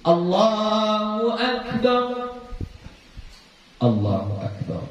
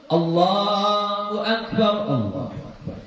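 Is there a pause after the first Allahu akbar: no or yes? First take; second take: yes; no. First: A clear pause separates the two phrases. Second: The phrases run together without a pause. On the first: The speaker calls it right. "berhenti dulu" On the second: The speaker calls it wrong. "jangan langsung"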